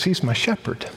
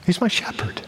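First: "He's" leaned on, soft; stress on HE'S. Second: "my" lifted, softly said; stress on MY. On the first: Preacher quoting David, stressing "He's". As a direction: land the weight on "He's", quietly. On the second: Preacher repeats David's words, now stressing "my". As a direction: raise "my" and let "shepherd" fall. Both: Shown as a demonstration.

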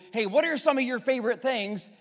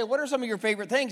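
First: Friendly question. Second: Rushed question. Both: Shown as a demonstration. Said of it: "But if I say".

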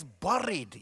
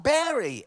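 First: "buried," with a Scottish U and tapped R, drawn out; Scottish pronunciation. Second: "bury," said like berry; wrong E vowel. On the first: Preacher teaches the congregation his way, "buried," in Scottish pronunciation. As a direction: say "buried," slowly as burr-eed. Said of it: "You're gonna say it in the Scottish way". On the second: Preacher shows the congregation the rejected pronunciation, "bury," as berry. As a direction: say "bury," with a clear E, pitched up in protest. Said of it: "It's not got an E at the beginning". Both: Shown as a demonstration.

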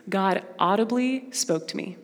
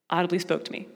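First: Said in the usual way. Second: Softer, awed repeat of audibly spoke to me; an awed whisper-soft echo; hushed echo. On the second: Real, not acted. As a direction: let it sink in, quietly.

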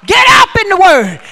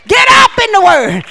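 First: Loud preaching shout; shouted command. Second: Shouted, punch "up"; stress on up. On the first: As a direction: call it out hard. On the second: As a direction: hit "up" hardest. Repeat with stress on up. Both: Real, not acted.

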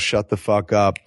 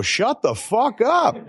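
First: Said in the usual way. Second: Higher, slow, half-laughing; mock yell. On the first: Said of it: "somebody yells". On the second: Quoting the guy off camera, laughing mock yell. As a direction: bark it through a laugh. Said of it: "when you hear the guy go".

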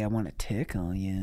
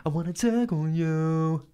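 First: Creepy low ghost voice. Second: High, slow crooning. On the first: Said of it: "He sounds just like [name]". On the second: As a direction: croon it like an R and B singer. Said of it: "He has a very R and B voice". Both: Pretend.

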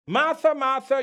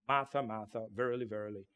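First: "Martha, Martha" called out higher and louder; exclaimed. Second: Said in the usual way. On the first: Shown as a demonstration. Preacher showing how Jesus called Martha, exclaimed. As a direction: call "Martha, Martha" as an exclamation, emphasizing it. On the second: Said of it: "Today you say, "Martha," exclamation".

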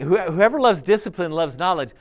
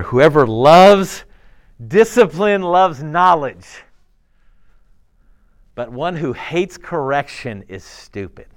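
First: Said in the usual way. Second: "Whoever loves" drawn out slowly and loud, each word weighted; slow emphatic verse reading. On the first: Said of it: "same verse said in passing". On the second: Shown as a demonstration. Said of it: "reads verse slowly and emphatically".

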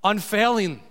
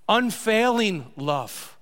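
First: Said in the usual way. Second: Unfailing love said slowly, stress on Unfailing; slow emphasis. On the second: Shown as a demonstration. Pastor underlining the key word for the church, slow and weighty. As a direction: stretch out Unfailing love, let it land. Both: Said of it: "What's the descriptor?".

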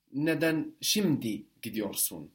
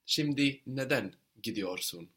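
First: Şimdi punched, right before the verb; stress on şimdi. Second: Neden emphasized, right before the verb; stress on neden. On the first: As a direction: put the emphasis on şimdi. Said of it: "if you wanted to emphasize that now". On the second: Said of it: "If you want to stress the why". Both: Shown as a demonstration.

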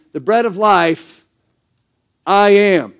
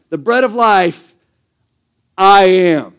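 First: Pause, then "I am" louder; stressed I am. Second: Loud, final "I am" punched after a pause; pause, then slam down "I am"; emphatic I am. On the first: A pastor reading Jesus' words to the church, leaning on "I am". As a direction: hold the beat before "I am" and push it. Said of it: "he's actually saying". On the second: A pastor showing how Jesus put himself last in the sentence, loud on "I am". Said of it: "the thing that matters most in the sentence". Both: Shown as a demonstration.

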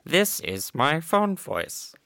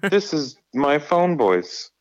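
First: Slow, higher copy of the sweet phone voice. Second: High, slow, sweet and polite; sugary customer-service tone; phone voice. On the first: Retold or imitated. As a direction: imitate her polite phone voice. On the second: Shown as a demonstration.

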